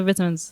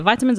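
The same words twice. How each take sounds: First: "vitamins" with first syllable like "vit"; short "ih" vowel opening "vitamins"; short-i pronunciation. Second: "Vitamins" with first syllable like "vie"; long "eye" vowel opening "Vitamins"; long-i pronunciation. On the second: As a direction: say "Vitamins" as VY-tuh-minz. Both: Shown as a demonstration. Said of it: "how do you say it?".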